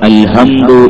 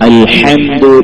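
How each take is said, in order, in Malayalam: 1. h ഒരു സാധാരണവും ലഘുവുമായ ശ്വാസ ശബ്ദമാണ്. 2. h തൊണ്ടയുടെ നടുവിൽ ആഴത്തിലാണ് ഉണ്ടാകുന്നത്. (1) "അൽഹംദു എന്ന് ഓതിയിട്ടുണ്ടെങ്കിൽ നിസ്കാരം ശരിയാവൂല" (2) "ഹ തൊണ്ടയുടെ നടുവിൽ നിന്നാവുക"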